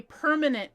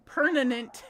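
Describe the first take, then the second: First: Said in the usual way. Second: Permanent said as "pernanent", n for m; childhood friend's mispronunciation. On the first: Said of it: "could never say permanent". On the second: Retold or imitated. Imitating best friend who couldn't say it, mispronounced. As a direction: swap the m in permanent for an n. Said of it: "She always said it like".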